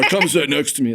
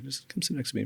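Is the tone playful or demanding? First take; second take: demanding; playful. First: It is said in a firm, demanding tone. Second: It is said in a light, playful tone.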